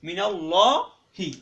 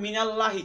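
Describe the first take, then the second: First: Slow, loud "মিনাল্লাহি" with a round, dark "llaw"; correct heavy lam. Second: Light, flat-mouthed "laa" in মিনাল্লাহি; wrong light lam. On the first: Teacher giving learners the required reading, heavy long "ল্লা" in মিনাল্লাহি. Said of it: "পড়তে হবে কি?". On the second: Teacher warning learners off a mistake, thin light "ল্লা" in মিনাল্লাহি. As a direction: say "মিনাল্লাহি" with a thin open "a", unrounded. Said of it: "তাহলে কি হবে না?". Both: Shown as a demonstration.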